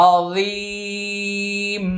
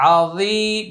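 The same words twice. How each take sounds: First: "আযীম" with a very long ee; three-alif stretch. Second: Said in the usual way. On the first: Shown as a demonstration. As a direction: draw out the second vowel of "আযীম". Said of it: "এটা তিন আলিফ টান". ("আযীম" তিন আলিফ টেনে)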